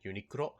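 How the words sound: The word is said with Japanese pronunciation. "I pronounce it with the Japanese pronunciation"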